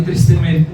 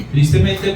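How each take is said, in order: First: Said in the usual way. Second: Laughing through the word Tristemente; ironic laugh. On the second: Real, not acted. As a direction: say Tristemente with a wry chuckle. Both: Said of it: "digo así tristemente".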